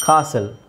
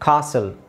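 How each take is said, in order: First: The t sound is silent in the middle. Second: The same.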